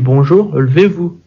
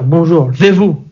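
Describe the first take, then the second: First: It is said in a calm, polite tone. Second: It is said in a barked, commanding tone. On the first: This is how the speaker wishes it were said. The speaker calls it right. "quand il rentre dans la classe, il dit bonjour, levez-vous" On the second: This is how it is actually said, like an army order. The speaker calls it wrong. "Au lieu de dire"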